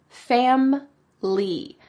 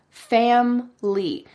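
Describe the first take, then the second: Both takes have the same delivery.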